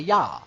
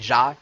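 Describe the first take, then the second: First: The word starts with a y sound. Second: The word starts with a j sound. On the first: The speaker calls it right. "you say ya" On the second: The speaker calls it wrong. "You don't say ja"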